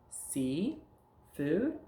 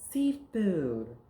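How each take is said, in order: First: "See", pause, "food", both lifted; words kept apart. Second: "seafood" run together, high and loud, then falling; words joined. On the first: Teacher prompting pupil to join words, separate "See", "food". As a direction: leave a gap between "See" and "food". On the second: Teacher putting two words together, emphatic joined "seafood". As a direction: blend "seafood" into one emphatic word. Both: Shown as a demonstration. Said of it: "take words and put 'em together".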